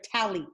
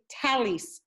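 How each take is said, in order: First: It ends with a T sound, Sephardic style. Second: It ends with an S sound, Ashkenazi style.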